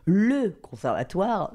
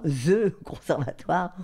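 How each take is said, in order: First: LE drawn out slowly and pitched up; slow, weighty emphasis on "le"; stress on LE. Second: "the" said in English, slow and grand; slow, amused emphasis on English "the". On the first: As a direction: lean grandly on "le" before conservatoire. Awe at a mysterious institution. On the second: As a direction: stretch out THE as a mock-grand title. Same words, mock-grand English article. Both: Shown as a demonstration.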